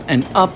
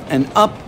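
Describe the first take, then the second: No difference in how they are said.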